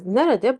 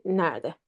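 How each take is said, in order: First: "nerede" in three syllables, ne-re-de; full written form of "nerede", middle e kept. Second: "nerede" said as two syllables, NER-de; spoken contracted form. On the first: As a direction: pronounce "nerede" as spelled, every e sounded. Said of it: "we write it as nerede". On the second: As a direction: drop the middle e in "nerede". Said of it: "but we say nerede". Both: Shown as a demonstration.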